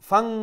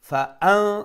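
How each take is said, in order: First: Fa runs straight into the n sound. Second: A firm glottal stop separates fa from an. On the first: The speaker calls it wrong. "ফারে আমরা জয়েন করলাম নুনের সাথে, হামজা যে মাঝখানে ইটারে আমরা বাদ দিলাইরাম" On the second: The speaker calls it right. "হামজারে অমলাখান স্পষ্ট করিয়া আর একটু শক্ত করে উচ্চারণ করবা"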